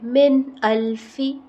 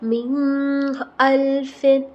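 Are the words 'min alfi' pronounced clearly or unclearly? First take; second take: clearly; unclearly. First: Each sound is pronounced clearly and distinctly. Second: The sounds are run together, not said clearly. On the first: The speaker calls it right. "इसको हम क्लियर पढ़ेंगे" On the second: The speaker calls it wrong. "ऐसे नहीं"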